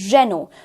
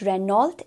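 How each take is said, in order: First: The word ends on a plain O sound. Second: The word ends with an L-T sound. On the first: The speaker calls it right. "it's Renault" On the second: The speaker calls it wrong. "it's not Renault"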